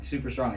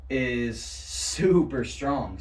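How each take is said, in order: First: Said in the usual way. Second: Slow, drawn-out stoner drawl; surfer stoner voice. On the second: Acted. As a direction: stretch it out like a dazed surfer. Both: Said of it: "I did it again".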